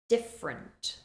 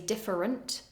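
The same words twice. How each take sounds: First: The middle syllable is dropped. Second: Every syllable is fully pronounced. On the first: The speaker calls it right. "We reduce it" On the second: The speaker calls it wrong. "We don't say different"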